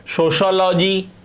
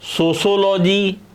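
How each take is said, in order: First: The second syllable is said as 'sho'. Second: The second syllable is said as 'sho'.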